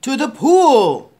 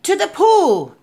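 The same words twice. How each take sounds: First: Loud, drawn-out shout; fireman's yell. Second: High, loud excited shout; boy's yell. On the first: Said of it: "yelled the fireman". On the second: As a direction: echo the yell in a higher voice. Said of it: "I yelled". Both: A narrator's reading.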